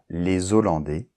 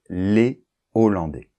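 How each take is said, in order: First: A z sound links les to Hollandais. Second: No z sound links les to Hollandais. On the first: The speaker calls it wrong. "on ne dit pas les Hollandais, c'est pas correct" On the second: The speaker calls it right. "on doit dire les Hollandais"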